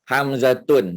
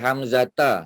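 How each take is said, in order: First: The word ends with the sound un. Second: The word ends with the sound a. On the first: "dah salah"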